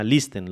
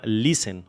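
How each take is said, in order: First: "listen" with the t sounded, lis-ten; Spanish pronunciation. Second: "listen" with a silent t, lisen; English pronunciation. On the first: Restating the example word for learners, "listen" in Spanish pronunciation. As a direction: read "listen" as a Spanish word, every letter pronounced. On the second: Naming an example word to learners, "listen" said the English way. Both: Shown as a demonstration. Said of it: "La voy a pronunciar como se pronunciaría en español".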